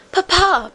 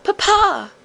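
First: Much higher eager call; joyful cry. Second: Even higher, distant-sounding call; longing cry. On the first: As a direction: cry out to her father. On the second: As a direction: reach out with the voice. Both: A narrator's reading. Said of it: "the princess cried".

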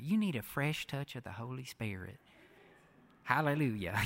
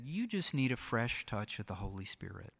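First: Soft southern evangelist accent, imitated. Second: Said in the usual way. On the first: Bishop praying over the speaker at a conference, imitated southern accent. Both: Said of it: "he said it in this southern accent".

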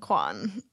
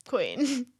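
First: Low "Quan" with an open vowel; mispronounced queen. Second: Said in the usual way. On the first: Retold or imitated. Mimicking co-host's mistake, "Quan" for Queen. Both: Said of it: "you didn't say it right".

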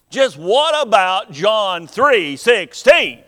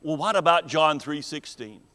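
First: Louder, slower, stress on what; emphatic repeat. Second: Said in the usual way. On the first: Retold or imitated. Preacher repeats the woman's question, louder with stress on what. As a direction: push the repeat as a pointed challenge. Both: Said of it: "she asked".

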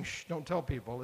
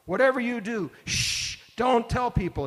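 First: Soft, casual shush; a gentle hush with no force behind it; mild shush. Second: Higher and louder, urgent hush; emphatic shush. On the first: Jesus to the disciples, a soft casual shush. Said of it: "He's not just saying". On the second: Jesus charging the disciples, an emphatic loud shush. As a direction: hammer home that this must stay secret. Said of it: "It's a very emphatic shush". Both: Retold or imitated.

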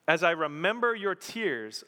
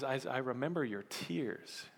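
First: Said in the usual way. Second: Soft repeat. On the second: Real, not acted. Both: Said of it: "Paul says".

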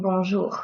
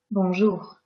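First: Bonjour with the R ground hard in the throat; exaggerated throaty R. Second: Bonjour with a quiet, gentle R at the end; soft French R. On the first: Teacher mocking the overdone R mistake. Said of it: "I'm not saying bonjour". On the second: Teacher giving the correct version after the wrong one. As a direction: soften the final R of Bonjour. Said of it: "And not bonjour". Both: Shown as a demonstration.

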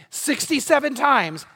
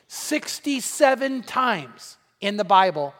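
First: "Sixty-seven times" repeated higher and slower, punched; emphatic repeat. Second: Sixty-seven times drawn out slowly, each word weighted; slow emphasis. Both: Shown as a demonstration.

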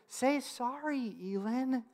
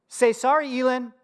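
First: Slow, soft imitation of an earnest toddler; tender, drawn-out attempt at an apology; sincere two-year-old. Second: Higher, matter-of-fact imitation of a small boy; lightly voiced child reciting an instruction; parroting toddler. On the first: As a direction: plead gently like a small child. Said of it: "with all sincerity that a two-year-old can muster". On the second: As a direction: repeat Dad's words like an obedient parrot. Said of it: "he parrots back to her my words".

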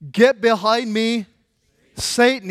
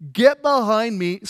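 First: Slow, louder, commanding rebuke; stern rebuke. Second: Slow, louder command; stern rebuke. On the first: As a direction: lay down each word firmly. Jesus rebukes Peter, retold. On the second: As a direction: say it firmly and deliberately. Rebuke repeated for emphasis. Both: Retold or imitated.

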